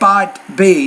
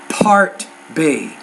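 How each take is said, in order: First: The first sound is between a P and a B. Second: The first sound is a clear P. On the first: The speaker calls it wrong. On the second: The speaker calls it right.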